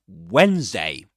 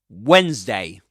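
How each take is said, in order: Both takes have the same delivery.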